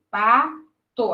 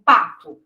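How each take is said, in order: First: "pato" split into pa, to; syllable by syllable. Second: Said in the usual way. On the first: Shown as a demonstration. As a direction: say "pato" in two separate syllables, pa and to. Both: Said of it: "uma letra pra cada sílaba".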